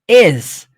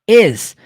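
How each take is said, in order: First: The word ends with a buzzing z sound. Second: The word ends with a buzzing z sound.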